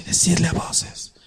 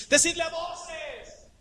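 First: Whispered softly, the wrong way; whispered Decidle a voces. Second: High, stretched-out call. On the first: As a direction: hush it like a secret. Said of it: "Calladito así". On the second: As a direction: call it out so all can hear. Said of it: "Es así". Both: Shown as a demonstration.

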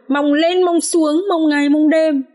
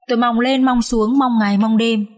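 First: Higher, slow, drawn-out bitter repetition; acted high, aggrieved wail of disappointment; bitter lament. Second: Mildly plaintive, even chant of hoping; a touch of wistful lament; plaintive longing. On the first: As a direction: draw out the long wait reproachfully. Wife bitterly repeats her hopes. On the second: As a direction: recount long hopes with understated sorrow. Wife recounts her hopes, tearful. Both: A narrator's reading.

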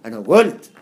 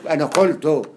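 First: "قلت" said "golt", with hard g; g for qaf. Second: "قلت" said "qoltu", with a q; loud "أنا قلت" read as classical "ana qoltu"; written qaf. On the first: Teacher giving the spoken form, "قلت" as loud "golt". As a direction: punch out "أنا قلت" loudly as "ana golt". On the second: Teacher giving the written form, "قلت" as "qoltu". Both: Shown as a demonstration. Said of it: "زي ما أقول".

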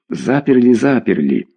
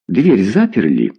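First: "Заперли" repeated as an answer, each one falling; reassuring double "заперли", stepping down; answering in chorus. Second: Checking question led by a stressed "Дверь". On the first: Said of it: "ответили ему хором". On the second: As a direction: question with the peak on "Дверь", falling after. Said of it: "спросил Беркович". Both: A narrator's reading.

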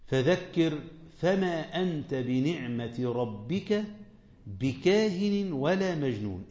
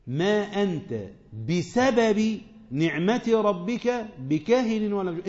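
First: Slow, drawn-out recitation; Quran recitation. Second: بسبب said slowly and pressed; stress on بسبب. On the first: Acted. Preacher recites the verse before explaining it, slow. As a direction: let the verse unfold word by word. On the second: Shown as a demonstration. Preacher explains the meaning to his class, slow with بسبب pressed. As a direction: lean hard on بسبب, the whole line slow. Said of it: "أمال يبقى معناها إيه للسببية؟".

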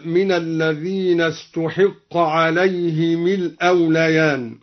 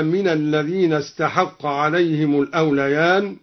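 First: استحق recited as passive "ustuhiqqa"; damma on ta, kasra on ha. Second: Said in the usual way. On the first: Shown as a demonstration. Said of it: "بضم التاء وكسر الحاء". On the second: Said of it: "قرأ الدوري بضم التاء وكسر الحاء".

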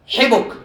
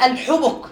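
First: حبك as hibuk, i then u; kasra then damma. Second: الحبك with its first vowel set against its twin, hubuk or hibuk; variant vowel reading. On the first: Teacher shows the rare pattern, kasra then damma. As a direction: say حبك with i after h, u after b. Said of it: "هذا حبك، هذا قالوا غير موجود". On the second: Teacher quotes a rare Quran reading, vowels carefully shown. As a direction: say الحبك slowly, each short vowel distinct. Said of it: "في قراءة والسماء ذات الحبك". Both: Shown as a demonstration.

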